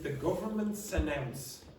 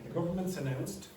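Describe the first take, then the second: First: The final consonant of the last word is dropped. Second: The final consonant of the last word is pronounced. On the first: The speaker calls it wrong. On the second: The speaker calls it right.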